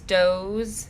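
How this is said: The word begins with a d sound.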